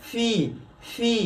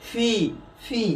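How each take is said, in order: The two takes are said the same way.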